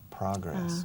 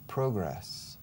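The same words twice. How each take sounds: First: It is said with an American pronunciation. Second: It is said with a British pronunciation. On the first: "And the Americans say pro, progress" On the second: "The British say pro, pro, progress"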